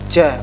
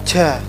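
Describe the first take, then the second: The two takes are said the same way.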